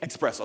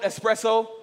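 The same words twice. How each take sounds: First: It begins with an 'ex' sound, adding X. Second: It begins with an 'es' sound, no X. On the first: The speaker calls it wrong. "we say espresso" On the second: The speaker calls it right. "Even in the way it's spelled espresso"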